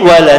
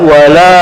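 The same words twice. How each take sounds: First: The vowel after the L is kept short. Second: The vowel after the L is drawn out long. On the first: It strongly affirms that something will surely happen. The speaker calls it right. "Tapi kalau lamnya pendek" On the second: It turns the sentence into a denial. The speaker calls it wrong. "kalau dibaca panjang itu menjadi nafi"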